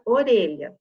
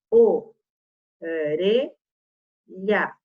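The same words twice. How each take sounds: First: Said in the usual way. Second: "o, re, lha" em sílabas isoladas, com pausas; separando sílabas. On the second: Shown as a demonstration. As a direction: diga "o... re... lha", sílaba por sílaba. ("o, re, lha" silabado devagar) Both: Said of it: "Se eu separar sílabas".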